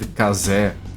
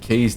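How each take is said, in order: First: The name is pronounced in a Brazilian way. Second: The name is pronounced in a plain English way. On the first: "because case is not a Brazilian word, ... they said casé" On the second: "instead of saying case"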